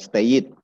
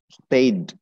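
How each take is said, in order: First: The ending adds an extra id syllable. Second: The ending is a plain d sound. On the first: The speaker calls it wrong. "bukan stayed" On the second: The speaker calls it right. "ya stay tinggal tetap stayed"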